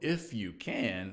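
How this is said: It is said in a smiling, playful tone. Of course help will be given. "Was it said with a smile and a twinkle?"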